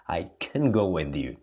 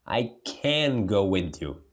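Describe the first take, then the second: First: "I can go with you" with "can" shortened toward "kn"; quick weak "can" in connected speech; reduced can. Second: "I can go with you" with "can" said in full like "kæn"; stressed full "can" as the wrong form; full vowel can. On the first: Teacher showing students real spoken English, relaxed. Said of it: "na fala realmente é". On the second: Teacher showing students the form not to use, careful. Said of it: "Você não fala". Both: Shown as a demonstration.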